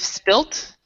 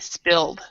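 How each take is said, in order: First: The word ends with a t sound. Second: The word ends with a d sound. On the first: This is the British form. "In British English, you would say I've spilt" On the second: This is the American form. "In American English, we actually do not use the D. We would say spilled"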